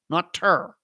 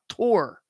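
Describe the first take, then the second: First: The vowel sounds like 'tur', as in 'turn'. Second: The vowel sounds like the word 'tour'. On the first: The speaker calls it wrong. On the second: The speaker calls it right. "It's tour. It's T O U R"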